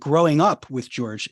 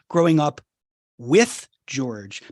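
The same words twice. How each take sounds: First: The emphasis falls on the words growing up. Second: The emphasis falls on the word with. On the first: It is the story of one's own individuation. "if you emphasize the growing up part" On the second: The father is growing up alongside the child. "if you put the emphasis on the with"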